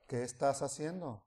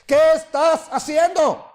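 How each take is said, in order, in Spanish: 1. La pregunta se dice más suavemente. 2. La pregunta se dice en voz alta. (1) "hablando más despacio" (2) "primero es fuerte"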